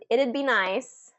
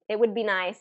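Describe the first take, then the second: First: It would is squeezed into one syllable. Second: It and would are said as two words.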